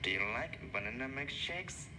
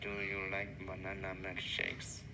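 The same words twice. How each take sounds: First: Key words are stressed with lively intonation. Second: Every word is said flat, like a robot. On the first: The speaker calls it right. "Adding stress, pause, and intonations" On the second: The speaker calls it wrong. "Without this stress, we sound like robbers"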